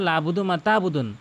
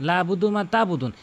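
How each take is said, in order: The two takes are said the same way.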